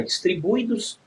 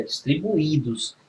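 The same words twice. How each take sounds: First: "distribuídos" with "ui" run together, stress off the i; misplaced stress. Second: "distribuídos" slowly, with the i stressed as its own syllable; stressed hiatus. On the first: Teacher showing what it is not, "distribuídos" with ui glided together. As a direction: say "distribuídos" wrongly, gliding "ui" as one syllable. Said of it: "não é distribuídos". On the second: Teacher giving the correct form, "distribuídos" with stressed separate í. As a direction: stretch "distribuídos", landing on a separate í. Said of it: "é distribuídos". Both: Shown as a demonstration.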